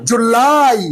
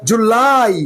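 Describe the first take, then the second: Both takes have the same delivery.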